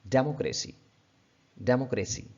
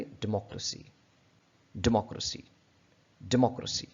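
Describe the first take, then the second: First: डेमोक्रेसी with a long de and stress on de; common mispronunciation. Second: डेमोक्रेसी with a short di, stress on mo; correct pronunciation. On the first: Teacher showing learners the wrong डेमोक्रेसी. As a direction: say डेमोक्रेसी the subcontinental way, dé-mo-kre-si. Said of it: "इस word को हम लोग क्या प". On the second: Teacher modelling the right डेमोक्रेसी. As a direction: say डेमोक्रेसी as di-MO-kra-si. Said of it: "ये word इसकी सही pronunciation है". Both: Shown as a demonstration.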